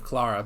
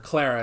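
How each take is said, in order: First: The name has a British pronunciation. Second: The name has an American pronunciation. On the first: "instead of Clara" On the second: "me calling her Clara"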